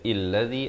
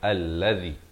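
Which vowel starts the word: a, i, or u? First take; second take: i; a. First: The word begins with an 'i' vowel. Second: The word begins with an 'a' vowel. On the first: The speaker calls it wrong. "Jangan baca illazi" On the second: The speaker calls it right. "Bacanya allazi"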